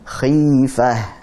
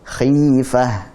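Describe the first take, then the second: No difference in how they are said.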